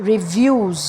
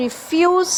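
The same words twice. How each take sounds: First: রিভিউজ with a voiced v, lower; v sound. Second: রিফিউজ with a crisp f; f sound. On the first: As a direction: repeat রিভিউজ with v. (ভা দিয়ে রিভিউজ) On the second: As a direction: repeat রিফিউজ with f. (ফা দিয়ে রিফিউজ) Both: Shown as a demonstration. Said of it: "এটা repeat করি".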